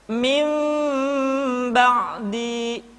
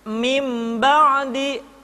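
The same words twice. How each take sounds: First: The m is faint with lips slightly apart. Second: The m is full with lips fully closed. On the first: The speaker calls it right. "ketika mengucapkan huruf mim, kedua bibir kita agak sedikit direnggangkan" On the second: The speaker calls it wrong. "tidak dibaca mim ba'di atau mim dengan menyempurnakan mim"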